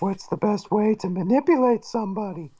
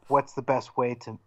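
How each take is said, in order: First: It is said in a put-on femme fatale voice. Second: It is said in the speaker's plain voice.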